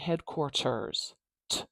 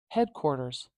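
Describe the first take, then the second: First: The T is a full, crisp T. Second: The T is a quick tap. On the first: The speaker calls it wrong. "I'm not saying headquarters t with a true T" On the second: The speaker calls it right. "we have a tap"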